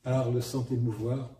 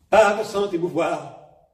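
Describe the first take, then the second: First: Said in the usual way. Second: Louder, higher, slower surge; a Gérard Philipe-style burst; sudden shock. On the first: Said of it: "dans Gérard Philippe". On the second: Retold or imitated. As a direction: let the second line erupt. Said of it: "Et là, oh, c'est un choc".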